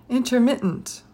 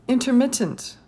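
Both takes have the same delivery.

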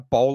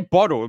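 First: The word is said fast without the T sounds. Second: The word is said with the T sounds pronounced. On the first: "I say it so quick, I kind of miss the T's and it ends up becoming bowl of water" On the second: "I say bottle"

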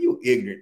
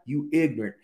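First: It is said in a scornful, insulting tone. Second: It is said in a plain, matter-of-fact tone. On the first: The listener is being insulted. The speaker calls it wrong. "Ignorant does not mean like, man, you ignorant. Not like that" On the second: The listener lacks learning. The speaker calls it right. "Bottom line"

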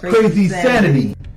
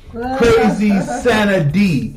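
First: The phrase is said quickly, run together. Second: The phrase is said at a normal pace.

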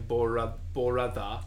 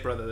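First: It is said with a Japanese accent. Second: It is said with an ordinary English accent. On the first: "they'd say Borada" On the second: "They wouldn't say brother"

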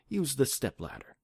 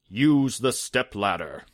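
First: It is said in a soft, comforting voice. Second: It is said in a theatrical, genie-like voice. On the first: The speaker calls it right. "He says it in a comforting voice" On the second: The speaker calls it wrong. "he doesn't say it like he's a genie like I just did"

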